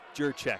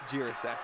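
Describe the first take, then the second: First: The name is said as Jurchek. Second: The name is said as Jirasek. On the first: The speaker calls it right. "It is Jurchek" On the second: The speaker calls it wrong. "not Jirasek"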